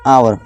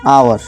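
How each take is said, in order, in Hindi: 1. यह शब्द स्वर की आवाज़ से शुरू होता है। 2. यह शब्द स्वर की आवाज़ से शुरू होता है।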